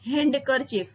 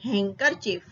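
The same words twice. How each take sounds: First: The D sound is pronounced. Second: The D sound is silent. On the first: The speaker calls it wrong. "Not handkerchief" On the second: The speaker calls it right. "D નો ઉચ્ચાર થતો નથી"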